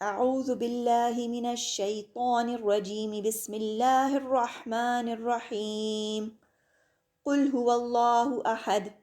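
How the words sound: The pause comes after 'rahim', before 'qul'. "इस्तिआज़ा और बसमला को एक ही सांस में पढ़ा जाता है, फिर सांस लेकर सूरत की इब्तिदा"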